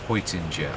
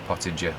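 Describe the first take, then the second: First: The first vowel is a softened, blended sound. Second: The first vowel is a plain short o. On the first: "he softens the O and the E together" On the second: "I've always said Pottinger"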